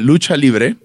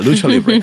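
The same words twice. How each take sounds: First: It is said with a Spanish accent. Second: It is said with an English accent. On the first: "how's the correct pronunciation?" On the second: "I'll say it pronounceable in English"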